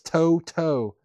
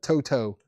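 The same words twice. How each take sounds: First: There is a pause between the two syllables. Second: The two syllables run together without a pause.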